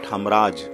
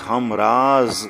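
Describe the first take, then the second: First: The word ends with a j sound. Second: The word ends with a z sound. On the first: The speaker calls it wrong. "not hamraj" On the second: The speaker calls it right. "We say hamraz"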